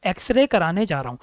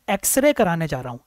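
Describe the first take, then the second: No difference in how they are said.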